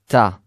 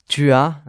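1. Des sons disparaissent et les mots se lient. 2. Chaque syllabe est prononcée en entier.

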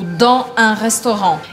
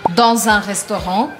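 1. Dans e un são ditos sem liaison. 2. Dans se liga ao un com liaison. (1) "não fazer"

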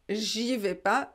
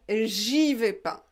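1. Le 'ne' est omis. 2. Le 'ne' est omis.

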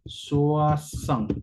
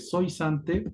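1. La vocal se pronuncia como un diptongo 'wa'. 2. La vocal se lee letra por letra, como se escribe. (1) "pero la pronunciación, tenemos un diptongo" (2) "se escribe soisante"

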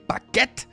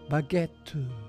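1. Das End-t stoppt hart und abrupt. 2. Der Schluss klingt weich mit einem Atemhauch aus. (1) "So richtig harter Stopp nach dem Tee" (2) "die lassen es ausschwingen"

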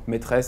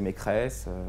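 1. La deuxième syllabe commence par un son t. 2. La deuxième syllabe commence par un son k. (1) "substitution tre,donc de tre vers creux" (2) "est prononcée maîtresse"

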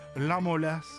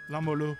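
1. Le son S final est prononcé. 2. Le son S final n'est pas prononcé.

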